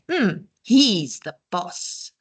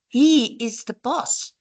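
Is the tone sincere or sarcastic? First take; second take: sarcastic; sincere. First: It is said in a sarcastic tone. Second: It is said plainly and sincerely.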